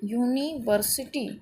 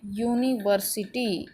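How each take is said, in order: First: यूनिवर्सिटी said slowly again with rising end; teacher repeats यूनिवर्सिटी slowly for class; slow demo word. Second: यूनिवर्सिटी said slowly with a clear yoo sound; teacher models यूनिवर्सिटी slowly; slow demo word. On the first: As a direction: repeat यूनिवर्सिटी slowly, lifting the last syllable. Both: Shown as a demonstration. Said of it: "किससे बोल रहे हैं".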